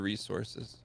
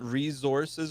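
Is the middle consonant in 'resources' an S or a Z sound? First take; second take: S; Z. First: The middle consonant is a hissing s sound. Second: The middle consonant is a buzzing z sound.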